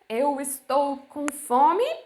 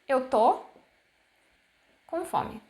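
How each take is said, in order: First: The verb is said in full as estou. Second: The verb is shortened to a single syllable. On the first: It is the formal way of saying it. "the formal way of saying" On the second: It is how people actually say it. "actually we would say tô"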